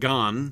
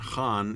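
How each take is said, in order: First: It begins with a hard g sound. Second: It begins with a plain h sound. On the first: "It's not Gan" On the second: "It's not even Han"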